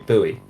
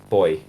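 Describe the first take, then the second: First: It is pronounced the American way. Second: It is pronounced the speakers' own local way. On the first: "The U S A say buoy" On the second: "we say boy"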